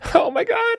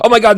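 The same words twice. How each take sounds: First: It sounds fake, higher pitched excitement. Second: It sounds genuinely excited.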